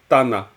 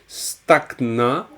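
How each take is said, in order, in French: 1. Les consonnes muettes ne se prononcent pas, à commencer par t. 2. Chaque consonne écrite se prononce, à commencer par st. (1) "Alors qu'en tibétain, on dira Tana. On ne dira pas Stak" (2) "une manière archaïque de prononcer le tibétain, ce qui fait qu'ils auront tendance à prononcer toutes les lettres dans une syllabe"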